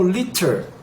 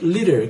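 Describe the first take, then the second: First: A British accent with a crisp T sound. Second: An American accent with the T flapped like R. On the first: "No inglês é, britânico, essa palavra seria dita como liter" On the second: "no inglês americano, a gente vai usar esse liter, que o T acaba ficando com som de R"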